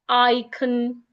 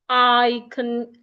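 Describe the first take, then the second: No difference in how they are said.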